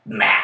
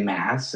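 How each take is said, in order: First: "mass" drawn out slowly for weight; stress on mass. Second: Said in the usual way. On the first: Shown as a demonstration. Friend stressing how big the numbers are, "mass" drawn out. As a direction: stretch "mass" to sound huge. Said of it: "when you say mass, it's, like, mass". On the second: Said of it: "when you say mass".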